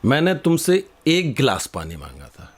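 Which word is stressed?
एक. The word एक carries the strongest stress. I asked for one glass, not several. "तुम ये पांच गिलास क्यों लेकर के आ गए?"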